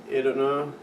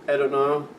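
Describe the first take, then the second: No difference in how they are said.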